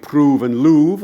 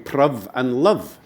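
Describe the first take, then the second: First: Both words use a long oo vowel. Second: Both words use a short vowel, as in love. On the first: "it could have been prove and louvre" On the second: "prov is a perfectly normal pronunciation of prove"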